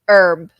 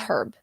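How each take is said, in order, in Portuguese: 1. O h no início é mudo. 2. O h no início é pronunciado. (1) "ele não é pronunciado" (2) "tem uma variação que você também pode falar herb"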